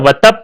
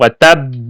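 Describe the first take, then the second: First: The final consonant is said single and short. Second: The final consonant is doubled and held longer. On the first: The speaker calls it wrong. "लोग अगर वतब पढ़ेंगे तो उनकी नमाज भी टूट सकती है" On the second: The speaker calls it right. "आखिर में तशदीद होगी"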